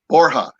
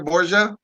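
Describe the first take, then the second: First: The name is pronounced the Spanish way. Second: The name is pronounced the Italian way. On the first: "It's actually Borja. That's how you say it in Spanish" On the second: "Borgia is the Italianized name of it"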